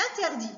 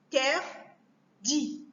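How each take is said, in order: First: Said in the usual way. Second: "Interdit" very slowly as In... ter... dit; three isolated beats in "Interdit"; split into syllables. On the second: Shown as a demonstration. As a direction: break "Interdit" apart with long pauses between syllables. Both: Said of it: "couper les mots en syllabes".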